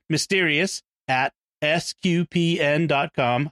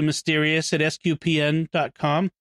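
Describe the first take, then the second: First: It is said slowly. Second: It is said quickly.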